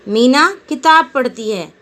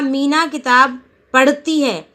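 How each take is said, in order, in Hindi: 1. बल पहले शब्द पर पड़ता है। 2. बल क्रिया पर पड़ता है। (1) "जब हम मीना शब्द पर बल देते हैं" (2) "पढ़ने पर जोर दिया"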